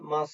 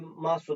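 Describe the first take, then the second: First: The final u is dropped. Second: The final u is pronounced. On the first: "yine mas şeklinde telaffuz ediliyor" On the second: "Fiillerin sonundaki masu"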